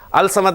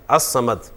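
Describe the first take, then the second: First: The l sound is pronounced before the s. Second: The l merges into a doubled s sound. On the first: The speaker calls it wrong. "अल समद नहीं कहा आपने" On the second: The speaker calls it right.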